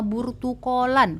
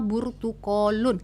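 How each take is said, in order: First: The word ends with an a vowel. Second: The word ends with an u vowel. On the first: "pakai fathah" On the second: "kita pakai domah"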